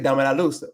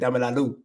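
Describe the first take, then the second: First: The final z of luz is pronounced. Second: Dominican accent, the final z is dropped.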